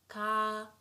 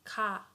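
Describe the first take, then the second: First: The vowel is held long. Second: The vowel is short. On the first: "it becomes double like this" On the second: "so let's say we have sound ka"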